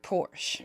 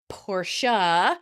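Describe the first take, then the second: First: The name ends without a final vowel sound. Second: The name ends with an audible final vowel. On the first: "I've always heard Porsche" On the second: "The pronunciation is Portia, and many people think the E is silent"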